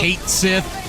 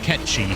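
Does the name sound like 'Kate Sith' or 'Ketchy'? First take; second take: Kate Sith; Ketchy. First: The name sounds like two words, 'Kate Sith'. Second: The name sounds like two syllables, 'ketchy'. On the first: This follows the English dub's reading. The speaker calls it wrong. "They pronounce it Kate Sith ... It's the English dub that pronounces it wrong" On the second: This follows the original Gaelic name. The speaker calls it right. "that's pronounced Ketchy, for the record. It's a Gaelic name"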